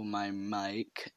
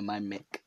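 First: Said in the usual way. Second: "mic" said as "mick", with a short i; alternative pronunciation. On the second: Shown as a demonstration. Podcaster unsure of the word, saying "mic" as "mick". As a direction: say "mic" to rhyme with pick. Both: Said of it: "or whatever I say".

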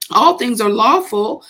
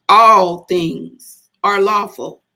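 First: Said in the usual way. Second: "All things are lawful" slow and deliberate, each word leaned on; emphasis on the whole phrase. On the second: Shown as a demonstration. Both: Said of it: "He put the emphasis on all things are lawful".

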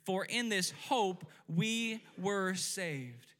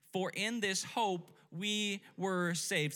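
First: Slow, weighted "For in this hope we were saved"; mean every word of it; preacher driving the verse home with conviction; said like you mean it. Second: "For in this hope we were saved" slow and steady; verse repeated slowly. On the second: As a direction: model it again for the congregation. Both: Shown as a demonstration. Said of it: "Say it like you mean it".

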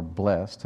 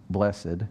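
First: "blessed" said as BLEST; one-syllable pronunciation. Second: "blessed" said as BLESS-id; two-syllable pronunciation. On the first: Preacher offers congregation a pronunciation, "blessed" as BLEST. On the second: Preacher offers congregation a pronunciation, "blessed" as BLESS-id. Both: Shown as a demonstration. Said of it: "however you want to pronounce it".

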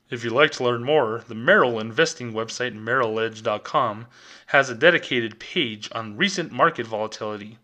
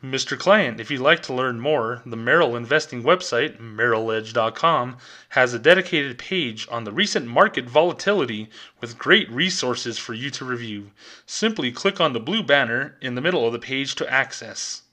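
First: A hint of a corporate announcer, lower; official bank voice. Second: Official bank voice. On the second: Retold or imitated. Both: Teller mocking the bank's answer, lightly polished corporate read. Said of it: "Official Bank of America voice".

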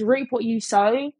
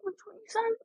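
First: Said in the usual way. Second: Much higher and softer, asking herself; doubtful murmur checking the wording; unsure questioning. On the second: Real, not acted. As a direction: float it up as an uncertain question. What is it?.

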